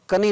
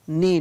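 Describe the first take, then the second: First: The word begins with a k sound. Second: The word begins with an n sound. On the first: The speaker calls it wrong. "कनी नहीं पढ़ेंगे" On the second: The speaker calls it right. "तो यहाँ पर इसको क्या पढ़ेंगे"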